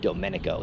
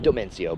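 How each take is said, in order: First: The sounds are in order, ending in '-nico'. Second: The middle sounds are swapped, ending in '-cio'. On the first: The speaker calls it right. "his name is Domenico" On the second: The speaker calls it wrong. "not Domencio"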